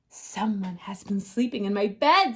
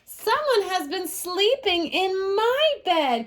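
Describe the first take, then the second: First: It is said in a great big voice. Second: It is said in a wee small voice.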